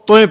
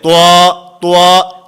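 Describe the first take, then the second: First: The vowel ends with an added y glide. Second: The vowel glides from rounded u to a. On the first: "तोय गलत है" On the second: "ये होंठ गोल नहीं होने चाहिए"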